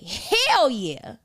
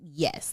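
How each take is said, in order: First: It is said with lively excitement. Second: It is said flatly and neutrally.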